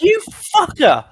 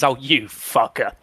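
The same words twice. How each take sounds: First: "You fucker" snapped much higher and louder; hostile insult. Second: Slow, fond teasing tone; affectionate insult. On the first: Same insult turned nasty, sharp high angry. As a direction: spit "You fucker" high and loud, drawn out. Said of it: "then that'd be more like". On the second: To friends who did something stupid, fond slow teasing. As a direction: tease a mate gently, drawn out. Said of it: "a term of endearment". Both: Shown as a demonstration.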